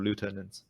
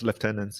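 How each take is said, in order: First: The first syllable sounds like 'loo'. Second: The first syllable sounds like 'left'. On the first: The speaker calls it wrong. "instead of lieutenants" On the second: The speaker calls it right. "you should use Commonwealth English and pronounce it as lieutenants"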